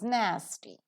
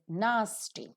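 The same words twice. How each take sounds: First: It is said in an American accent. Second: It is said in a British accent. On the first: "The American pronunciation is" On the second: "the British pronunciation is"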